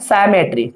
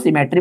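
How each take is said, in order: First: The first vowel is long, as in 'sigh'. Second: The first vowel is short, as in 'sit'. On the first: This is how the speaker habitually pronounces it. "मेरा आदत है बच्चों ऐसा बोलने का" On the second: This is how the listeners usually pronounce it. "आप लोग जैसा उच्चारण करते हो सिमेट्री करके"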